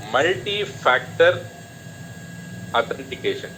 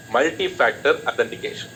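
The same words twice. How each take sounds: First: Multi-factor authentication drawn out slowly, syllable by syllable; slow spelled-out term. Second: Said in the usual way. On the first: Shown as a demonstration. Teacher spelling out multi-factor authentication to students, slow and deliberate. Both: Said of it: "M F A meaning".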